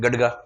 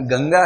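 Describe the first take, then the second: First: The middle consonant is a d sound. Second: The middle consonant is a nasal ng sound. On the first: The speaker calls it wrong. "गडगा नहीं है" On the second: The speaker calls it right. "गंगा है"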